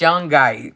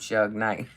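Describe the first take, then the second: First: It sounds like 'Shungite', with an n sound. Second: It sounds like 'Shug Knight', without the n sound. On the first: The speaker calls it right. "It's Shungite" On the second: The speaker calls it wrong. "don't say no damn Shug Knight"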